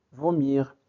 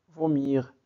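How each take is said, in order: Both takes have the same delivery.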